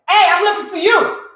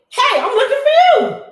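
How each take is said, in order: First: It is said in a hostile, confrontational tone. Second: It is said in a friendly, upbeat tone. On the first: The person has come to make trouble. "Then you have the absolute authority to jump to conclusions" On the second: The person has come in peace. "in an upbeat way"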